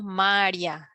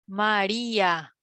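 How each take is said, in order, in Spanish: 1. Las dos últimas vocales se unen en una sola sílaba. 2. Las dos últimas vocales están en sílabas separadas.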